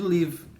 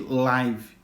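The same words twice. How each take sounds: First: Pronounced as the verb meaning to reside. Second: Pronounced as the word meaning broadcast live. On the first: It means to reside somewhere. "não vai vir com a, a pronúncia de live" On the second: It means happening in real time. "e sim de live"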